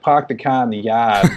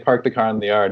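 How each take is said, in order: First: It is said in a Boston accent. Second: It is said in a general American accent.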